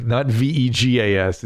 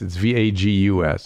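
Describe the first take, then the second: First: V E G A S spelled letter by letter, the wrong word. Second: V A G U S spelled letter by letter, the right word. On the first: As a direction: spell out V E G A S with a laugh. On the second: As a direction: spell out V A G U S firmly. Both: Shown as a demonstration.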